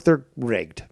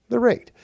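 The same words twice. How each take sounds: First: Said in the usual way. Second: "They're rigged" repeated higher, emphatic; stressed repeat. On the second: Real, not acted. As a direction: hammer home "They're rigged".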